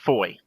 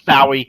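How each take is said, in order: First: The name is said as one syllable, 'Foy'. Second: The name is said as two syllables, 'Fowie'. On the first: The speaker calls it right. "it's pronounced Foy" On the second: The speaker calls it wrong. "I would have called it Fowie"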